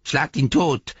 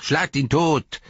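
First: Mocking imitation. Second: High, loud sneering echo; mocking imitation. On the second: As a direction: ape the mob's cry. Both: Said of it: "äffte er sie nach".

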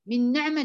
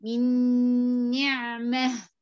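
First: "من نعمة" said quickly without stretching "مي"; the mistake to avoid, rushed "من نعمة"; teacher mimics a student's wrong "من نعمة"; wrong reading. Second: "من نعمة" with kasra on "مي" and noon merged with ghunna; careful model of "من نعمة"; teacher gives the right "من نعمة"; correct reading. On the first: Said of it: "ما تقوليش من نعمة". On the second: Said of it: "انتبهي". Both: Shown as a demonstration.

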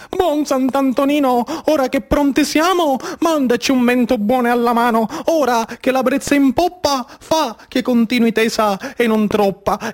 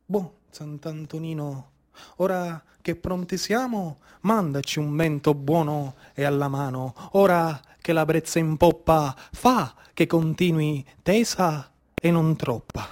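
First: Prayer said aloud in a fuller voice; spoken prayer. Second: Very low and much softer, murmured litany; whispered prayer. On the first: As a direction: pray openly to Sant'Antonino. Prayer said again as the child. (preghiera detta a voce piena) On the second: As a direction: pray to the saint under your breath. Fishermen's prayer to the saint. (preghiera mormorata, molto bassa e piano) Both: Acted.

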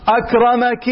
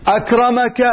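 First: أكرمكِ ending with a clear kasra, akramaki; feminine ending. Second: أكرمكَ ending with a clear fatha, akramaka; masculine ending. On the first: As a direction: say أكرمك with -ki, addressing a woman. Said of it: "والكسر للم-، للمؤنث". (أكرمكِ بكسر الكاف للمؤنث) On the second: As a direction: say أكرمك with -ka, addressing a man. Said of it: "أن الأولى للمذكر". (أكرمكَ بفتح الكاف للمذكر) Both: Shown as a demonstration.

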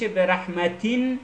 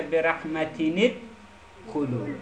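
First: "رحمتین" ending in a held, vowelless n; "رحمتین" said rahmatinn, nothing after the n; sounded tanween. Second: "رحمتینت خلو" linked as rahmatini-d-khulu; "رحمتینت" with an i after the n, joined onward; nun given kasra. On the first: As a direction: let "رحمتین" stop on a humming n. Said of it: "نونش ساکنه دیگه". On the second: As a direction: turn the final n of "رحمتینت" into "ni" before "خلو". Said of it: "نون ساکن رو تبدیل به کسر". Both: Shown as a demonstration.

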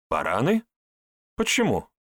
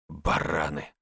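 First: Questioning echo with a rising end; puzzled echo. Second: Low, curt grumble; grumbled. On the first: Acted. Herbalist echoing Andrey's insult, puzzled. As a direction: throw the word back as a question. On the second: A narrator's reading. Andrey commenting on what he heard, grumbling low. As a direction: grumble the insult under your breath. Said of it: "буркнул Андрей".

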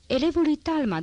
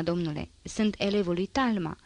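First: Boastful exclamation. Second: Said in the usual way. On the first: A narrator's reading. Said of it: "Exclamă cu un glas care amintea totodată îngânfarea scamatorului". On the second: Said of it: "Exclamă cu un glas".

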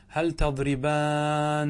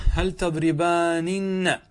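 First: "تضربان" stopping on one long held n; slow demo of "تضربان", no final -ninna; form after deletion. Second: "تضربانن" with every n sounded, long aa; emphatic slow demo of "تضربانن", ending -aaninna; original form. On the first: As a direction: stretch "تضربان" as tadribaaannn. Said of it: "ماذا صارت الآن بعد الحذف". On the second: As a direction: draw out "تضربانن" loudly as tadribaaa-ninna. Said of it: "حذفنا فقط النون". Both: Shown as a demonstration.

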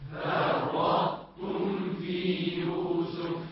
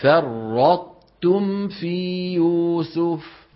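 First: Distant group chant; faint repeat; class echoing from afar. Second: فرطتم chanted slowly with clear ط; sung, stress the ط in فرطتم; sung, slow Quran recitation. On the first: Real, not acted. Students chanting back. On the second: Shown as a demonstration. Teacher re-chanting after the correction. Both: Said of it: "طاء".

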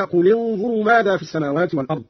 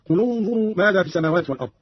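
First: Said in the usual way. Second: قل انظروا linked with u, "qulu-nzuru"; damma on the lam. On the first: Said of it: "قرأ قالون بضم أولى الساكنين". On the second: Shown as a demonstration. Teacher shows Qalun's reading, قل انظروا as "qulunzuru". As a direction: join قل to انظروا with an u on the l, not an i. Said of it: "بضم أولى الساكنين وهو اللام هكذا".

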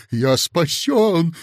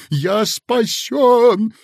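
First: Louder, slow rejoicing; joyful cry. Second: Much higher, louder, slow; ecstatic shout. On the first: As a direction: exclaim with relief. (радостный возглас) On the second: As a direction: burst out in ecstatic relief. (восторженный крик) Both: A narrator's reading. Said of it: "ликуя воскликнул".

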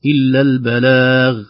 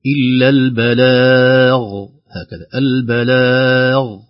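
First: "البلاغ" with a light dialect ghain; colloquial ghain. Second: "البلاغ" chanted slowly with a full, heavy ghain; heavy ghain, recited. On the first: Teacher shows the dialect-tinged mistake. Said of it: "تأثر بالعامية". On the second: Teacher models the correct heavy ghain. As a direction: sing "البلاغ" with a thick final ghain. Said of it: "بتفخيم الغين". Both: Shown as a demonstration.

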